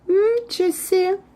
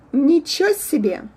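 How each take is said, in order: First: The first N is drawn out, its vowel skipped. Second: Both words are said fully, nothing drawn out. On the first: "we kind of skip a vowel E. We make a sound N longer" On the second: "the first version is ничего себе"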